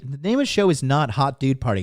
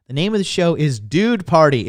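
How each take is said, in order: First: Said in the usual way. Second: "Dude" punched louder and higher, rest falls; stress on DUDE. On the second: Shown as a demonstration. Correcting the host on the show's name, stress on "Dude". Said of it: "Dude Party's the name of the show".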